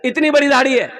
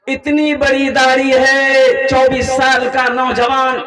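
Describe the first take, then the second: First: Said in the usual way. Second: "इतनी बड़ी दाढ़ी है" stretched very slowly and louder; drawn out emphasis. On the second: Shown as a demonstration. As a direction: draw out "बड़ी" to show how big. ("इतनी बड़ी दाढ़ी है" को बहुत धीरे खींचकर, ज़ोर से)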